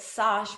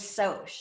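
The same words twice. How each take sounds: First: "sosh" with an open ah; mistaken pronunciation. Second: "soch" said as sohsh, long o; correct pronunciation. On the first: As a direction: rhyme "sosh" with gosh. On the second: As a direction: say "soch" like the start of socialize. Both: Shown as a demonstration. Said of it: "know that sosh was soch".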